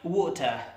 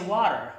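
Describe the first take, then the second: First: It is said in a British accent. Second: It is said in an American accent. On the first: "you say in the U K" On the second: "while we say"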